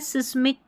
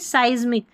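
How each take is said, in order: First: The first vowel sounds like 'ih'. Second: The first vowel sounds like 'eye'. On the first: The speaker calls it wrong. "सिस्मिक करके नहीं" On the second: The speaker calls it right. "आई उच्चारण है"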